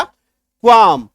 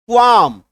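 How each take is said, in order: First: क्वाम drawn out very slowly and loud as kwaam; slow stretched qualm. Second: क्वाम said loud as kwaam, no l; silent l qualm. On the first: Teacher stretches qualm so students hear it. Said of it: "क्या उच्चारण हो गया?". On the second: Teacher announces qualm, the l cut out. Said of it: "M से पहले एल है, काट दीजिए". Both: Shown as a demonstration.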